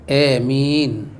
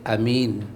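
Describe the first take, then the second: First: The first vowel leans from a toward e. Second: The first vowel a is kept short. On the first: "dengan imalah" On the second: "a baca pendek"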